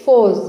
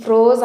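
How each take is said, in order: First: "ఫోజ్" with f straight into the vowel; silent r. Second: "ఫ్రోజ్" with the r sounded after f; wrong pronunciation. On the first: Teacher giving the correct form, firm "ఫోజ్" without r. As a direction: say "ఫోజ్" firmly, leaving out any r. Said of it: "ఆర్ అనేది silent". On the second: Teacher naming the mistake to avoid, "ఫ్రోజ్" with audible r. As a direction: pronounce the r in "ఫ్రోజ్". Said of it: "తప్పు pronunciation". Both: Shown as a demonstration.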